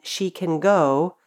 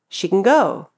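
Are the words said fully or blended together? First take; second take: fully; blended. First: Every vowel is pronounced fully and separately. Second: The sounds are blended together quickly. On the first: "Instead of pronouncing all the vowels in" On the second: "just blend the sounds together and say"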